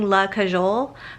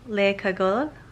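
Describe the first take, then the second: First: The name is said like 'la cajole'. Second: The name is said like 'le cagole'. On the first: The speaker calls it wrong. "I kept saying La Cajole" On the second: The speaker calls it right. "but I think it's Le Cagole"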